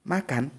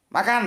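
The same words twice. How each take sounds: First: "Makan" said as a statement with a falling end; falling tune. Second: "Makan" said high as a question with a rising end; rising tune. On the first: Teacher demonstrating intonation, "Makan" as a falling statement. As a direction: drop the pitch on "Makan" like a plain statement. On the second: Teacher demonstrating intonation, "Makan" as a rising question. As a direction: lift "Makan" up sharply like asking. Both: Shown as a demonstration. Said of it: "Aku kasih contoh".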